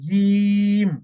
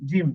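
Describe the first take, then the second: First: The word is held and drawn out longer. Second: The word is said short and clipped. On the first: The speaker calls it right. "একটু দীর্ঘ করে জিম" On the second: The speaker calls it wrong. "শোনা যাচ্ছে জিম, জিম, জিম না"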